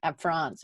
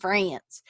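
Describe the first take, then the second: First: France said the French way, with a nasal French vowel; France in a light French accent, not English; French pronunciation. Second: France drawn out in a Southern Alabama accent; France in a homey Alabama accent. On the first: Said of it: "I'm sure is how they say it". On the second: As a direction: say France the Alabama way, stretched and twangy. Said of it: "I'm gonna call it my Alabama accent". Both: Shown as a demonstration.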